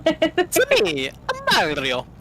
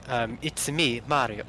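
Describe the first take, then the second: First: Very high, loud cartoon Italian voice; exaggerated high-pitched plumber voice; Mario. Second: Low, restrained British accent; quiet, lower mock-English delivery. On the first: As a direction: squeal the game hero's catchphrase. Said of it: "Ah, Mario impressions". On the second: Shown as a demonstration. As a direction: say the catchphrase in understated British. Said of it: "in your English accent".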